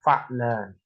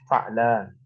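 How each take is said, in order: First: Said in the usual way. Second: Fa'lan drawn out slowly, syllable by syllable; slow model pronunciation. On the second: Shown as a demonstration. Teacher drilling the pattern for class, slow model. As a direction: say fa'lan slowly for students to copy. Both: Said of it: "ini wazannya berarti apa?".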